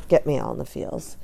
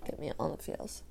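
First: Said in the usual way. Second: Whispered. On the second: Shown as a demonstration.

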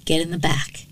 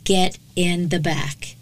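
First: Hushed, understated command; quiet order. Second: Slow, emphatic command without shouting; mild narrated yell. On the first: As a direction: order it under your breath. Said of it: "he ordered". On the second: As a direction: space out each word as a firm order. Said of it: "Wood yells at her". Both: A narrator's reading.

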